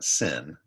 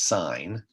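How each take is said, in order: First: The word has a short vowel, like 'sin'. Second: The word has a long vowel, like 'sign'. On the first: The speaker calls it wrong. "You don't pronounce that sin" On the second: The speaker calls it right. "it's sine"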